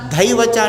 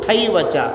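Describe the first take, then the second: First: The first consonant is a voiced aspirated 'dh'. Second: The first consonant is a voiceless aspirated 'th'. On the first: The speaker calls it wrong. "ధైవచ అంటున్నారు" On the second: The speaker calls it right.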